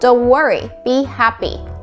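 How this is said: Said with deep, slightly nasal English-style voice. "영어식으로 영어의 발성법, 봉골레 하나 발성법으로"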